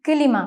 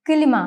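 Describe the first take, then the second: The two takes are said the same way.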